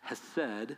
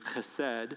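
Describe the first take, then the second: First: The word begins with a soft breathy h. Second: The word begins with a harsh throaty sound.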